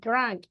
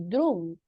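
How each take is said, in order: First: The vowel is said with lips spread like smiling. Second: The vowel is said with neutral, unspread lips. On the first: The speaker calls it right. "We say drunk. ... put your mouth like when you are smiling" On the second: The speaker calls it wrong. "we don't say drunk"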